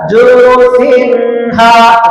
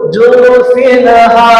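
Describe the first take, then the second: First: The n sound is held too long. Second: The n sound bounces with a vowel. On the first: "jangan tahan ... salah" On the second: "yang salah lagi pantun ... salah"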